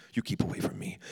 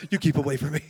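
First: Hissed low and breathy, no voice; mock hissed warning. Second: Louder, laughing through the words; laughing repeat. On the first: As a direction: push him away in a half-whisper. Injured man refusing prayer. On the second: Retold or imitated. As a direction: crack up as you repeat it.

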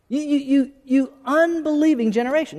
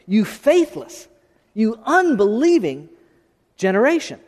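First: Higher, pressing rebuke with stammered build-up; insistent repeat of Jesus' rebuke. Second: Slow, deliberate rebuke of a faithless crowd; slow, stern preacher quoting Jesus; voicing Jesus' rebuke. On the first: Acted. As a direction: push harder on the repeat, pitch up. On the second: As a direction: drag out each word like a weary rebuke.

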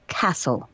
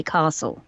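First: Slow "castle" with a short a, as in cat; local pronunciation of castle. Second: "castle" with a long ah, as in father; RP pronunciation of castle. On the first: Explaining the regional way to the host, short-a castle. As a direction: say castle with a short a, not "cah". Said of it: "and they say". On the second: Explaining RP to the host, long-a castle. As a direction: say castle as "CAH-sul". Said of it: "in the R P you say". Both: Shown as a demonstration.

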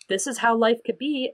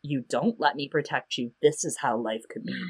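First: Higher-pitched, lifted quote; offered promise. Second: Low, softer, dropped quote; veiled warning. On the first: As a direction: lift the voice, dangling a possibility. Hopeful option set against threat. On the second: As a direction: drop the pitch and volume for the grim alternative. Threatening option set against first. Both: Retold or imitated.

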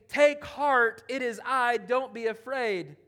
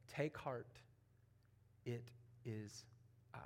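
First: Loud reassurance. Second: A soft, unvoiced whisper of comfort; hushed whisper. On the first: Acted. Jesus reassuring, retold with force. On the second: Jesus calming the terrified disciples, whispered softly. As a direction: breathe the words gently to the frightened disciples.

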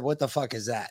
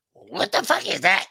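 First: Said in the usual way. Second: Lightly imitated cartoon duck squawk; a hint of garbled duck voice; Donald Duck. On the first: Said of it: "I could clearly make out". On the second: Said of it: "I heard Donald Duck".

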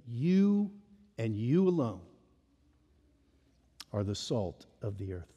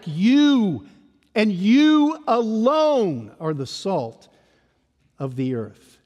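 First: Quiet. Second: Preacher's insistence on You; emphatic you. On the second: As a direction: hit the word You hard, let "you alone" land slowly. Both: Shown as a demonstration. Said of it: "it's emphatic".

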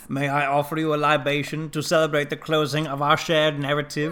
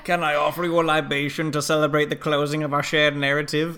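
First: Lightly put-on formal German-tinged voice, a bit higher and louder; a hint of Werner Herzog's measured accent; highfalutin Herzog quote. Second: Put-on a touch of grand formal accent, raised and a little louder; highfalutin Herzog quote. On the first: Quoting Herzog's libation line to the cohost, in a lightly put-on formal accent. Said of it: "The libation one?". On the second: Imagining Herzog toasting the cast at the end, lightly put-on formal accent. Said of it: "just says to, like, Pedro and Gina and Carl".

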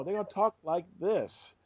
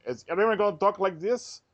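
First: Slow, higher put-on Russian accent. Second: Said in the usual way. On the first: Shown as a demonstration. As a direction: demonstrate a Russian accent, drawn out. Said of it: "So you go to Russia". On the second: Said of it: "they talk with no accent".

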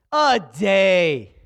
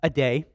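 First: "A day." leaned on, fuller and louder; louder, lingering "A day.". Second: Said in the usual way. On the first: Real, not acted. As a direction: land "A day." with weight. Preacher repeats the missing day.

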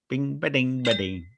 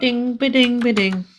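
First: Coin chime sound. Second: Sung ding jingle, high; coin chime sound. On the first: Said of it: "Is that the new theme?". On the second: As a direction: chime it out like a bell. Podcast outro jingle sung. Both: Pretend.

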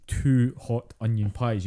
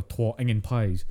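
First: TWO HOT ONION PIES in full standard words, slowly; standard wording. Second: Broad, slow Dundonian; Dundee accent. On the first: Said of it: "if you want to see the phrase". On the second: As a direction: stretch it out in thick Dundee Scots. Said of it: "you go to Dundee". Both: Shown as a demonstration.

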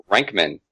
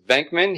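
First: "Renkman", with R replacing the opening V; V turned into R. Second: Said in the usual way. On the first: Shown as a demonstration. Host mimicking how Janosch says Venkman, V turned into R. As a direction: start "Renkman" on R instead of V. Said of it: "he says Renkman". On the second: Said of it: "when he says Venkman".

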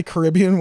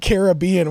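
First: Caribbean said kuh-RIB-ee-un; stress on RIB. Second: Caribbean said care-uh-BEE-un; stress on BE. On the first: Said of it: "whenever I'm talking about a vacation". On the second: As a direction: hit BE in Caribbean. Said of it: "not thinking of it in a positive light". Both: Shown as a demonstration.

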